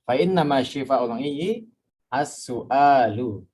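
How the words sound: There is a pause before the last word. "biar ada jedanya nggak apa-apa nih. Dibacanya sampai iyyi baru nanti as-su'alu"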